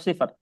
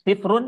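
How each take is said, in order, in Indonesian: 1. Kata ini diakhiri bunyi r mati. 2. Kata ini diakhiri suku kata -un. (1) "harus dibaca dibaca mati kalau di akhir ini" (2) "Sifrun atau sifr"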